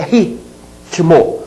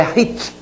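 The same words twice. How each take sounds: First: Ritmo broken as ri, pause, tmo; T joined to the second syllable of ritmo; split before T. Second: Ritmo broken as rit, pause, mo; T closes the first syllable of ritmo; split after T. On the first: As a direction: say ritmo with the pause straight after ri. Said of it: "Você poderia ficar na dúvida". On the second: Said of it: "deve ser separado ao meio". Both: Shown as a demonstration.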